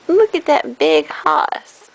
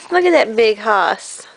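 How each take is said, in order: First: Said in the usual way. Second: Low, big-guy voice; a lower, teasing tough-guy voice; deep hoss voice. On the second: Pretend. Deep voice, then plain.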